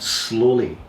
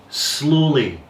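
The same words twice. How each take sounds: First: Said in the usual way. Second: Slowly drawn out and lifted, falling at the end; stress on slowly. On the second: Shown as a demonstration. Teacher warning students to move the leg, stress on slowly. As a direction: lean on slowly so they really hear it. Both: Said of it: "and I emphasize the word slowly".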